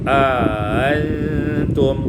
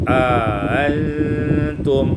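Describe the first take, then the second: No difference in how they are said.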